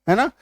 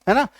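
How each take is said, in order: The two takes are said the same way.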